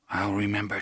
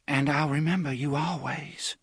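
First: Said in the usual way. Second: Put-on tender young woman. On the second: A narrator's reading. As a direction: promise it tenderly as the girl.

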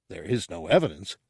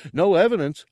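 First: Quick, restrained, irritated reply; brisk, weary put-down; exasperated correction. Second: High, loud character declaration; high-voiced, emphatic "no evidence"; proud simpleton. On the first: Acted. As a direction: correct the fool briskly, keeping your voice down. Ortug's exasperated correction of Gartog. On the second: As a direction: announce it as clinching proof, pitched up. Gartog's proud proof, then Ortug's reply.

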